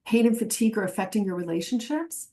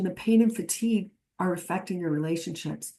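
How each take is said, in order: First: "relationships?" rising at the end like a question; a quick questioning take, voice going up. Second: "relationships" falling, quieter, as a statement; calm reflection, tune going down. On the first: Trainer showing the wrong way, rising question tune. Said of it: "That is a question". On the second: Trainer showing the right way, falling statement tune. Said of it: "offering it as a reflection". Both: Shown as a demonstration.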